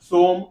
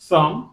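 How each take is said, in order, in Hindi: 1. स्वर लंबी oh ध्वनि है। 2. स्वर छोटी uh ध्वनि है। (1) "ये तो ऐसे पढ़ेंगे। लेकिन नहीं" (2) "अ का उच्चारण"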